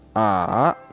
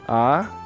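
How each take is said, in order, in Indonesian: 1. Nadanya turun ke rendah, lalu naik lagi. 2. Nadanya naik dari tengah ke tinggi. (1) "Nada tiga, sanseng" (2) "Nada dua, erseng"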